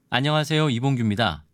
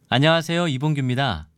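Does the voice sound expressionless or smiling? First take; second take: expressionless; smiling. First: It is said with an expressionless voice. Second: It is said with a smiling voice.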